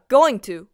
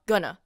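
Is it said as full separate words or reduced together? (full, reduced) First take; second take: full; reduced. First: Both words are said fully and separately. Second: The words are squeezed into one short word. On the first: "going to を早く言うとgonna になるんだ" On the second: "going to を早く言うとgonna になるんだ"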